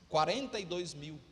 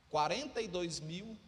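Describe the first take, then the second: The two takes are said the same way.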